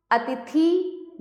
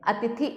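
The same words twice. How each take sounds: First: अतिथि drawn out to "a-ti-theee"; अतिथि ending on a long "ee"; wrong long ending. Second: Said in the usual way. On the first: Shown as a demonstration. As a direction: stretch the final vowel of अतिथि long. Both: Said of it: "नहीं".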